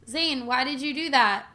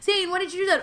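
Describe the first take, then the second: First: It is said slowly, in a drawn-out way. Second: It is said quickly, in a bantering way.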